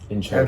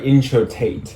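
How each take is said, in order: First: The middle consonant is a D sound. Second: The middle consonant is a T sound. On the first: The speaker calls it wrong. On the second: The speaker calls it right.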